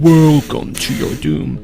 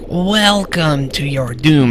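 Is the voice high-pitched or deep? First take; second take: deep; high-pitched. First: It is said in a deeper, menacing voice. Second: It is said in a higher, less menacing voice.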